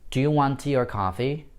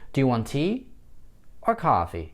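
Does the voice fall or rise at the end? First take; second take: rise; fall. First: The pitch rises on the final word. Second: The pitch rises on tea, falls on coffee. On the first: A drink is being offered. "с восходящим тоном на последнее только слово" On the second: The listener must pick one of two options. "мы повышаем наш контур на первом выборочном слове... И на втором слове мы его понижаем"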